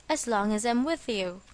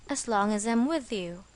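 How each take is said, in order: The two takes are said the same way.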